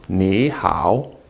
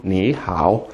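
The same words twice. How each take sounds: First: "Ni" rising, then low dipping "hao"; second-tone Ni. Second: "Ni hao" quickly, both syllables low dipping; both third tone. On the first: Teacher showing the proper version, rising "Ni" in "Ni hao". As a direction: lift "Ni" upward before dropping low on "hao". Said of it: "making the first one a second tone". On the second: Teacher showing the casual version, both third-tone "Ni hao". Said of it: "quickly in both in third tone". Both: Shown as a demonstration.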